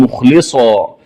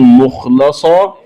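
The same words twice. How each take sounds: First: مخلصا said "mukhlisa"; short i after l in مخلصا; kasra on lam. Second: Said in the usual way. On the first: Shown as a demonstration. Teacher showing the variant, مخلصا with i on lam. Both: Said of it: "قرأها بكسر اللام".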